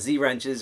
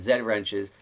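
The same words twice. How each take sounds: First: The letter is said 'zee', American style. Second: The letter is said 'zed', British style.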